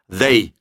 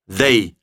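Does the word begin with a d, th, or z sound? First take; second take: th; th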